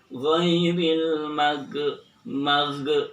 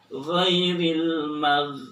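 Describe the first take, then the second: First: The gh sound is bounced with an echo. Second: The gh sound is smooth, without a bounce. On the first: The speaker calls it wrong. "nggak boleh dibaca" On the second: The speaker calls it right. "pengucapan ghin ketika sukun tidak boleh dipantulkan"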